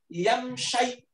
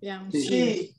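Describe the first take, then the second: First: The word ends with an 'eye' diphthong. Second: The word ends with a short 'ee' vowel. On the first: The speaker calls it wrong. "Itu sama kayak lebay. Nggak bisa" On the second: The speaker calls it right. "Kenapa ini dibaca shi?"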